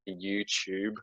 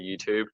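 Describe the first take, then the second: First: The middle sound is a 'ch' sound. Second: The middle sound is a clear 't' sound. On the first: Others say it this common way. "a T being substituted for C H. You know, when people say" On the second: The speaker says it this way himself. "I say YouTube"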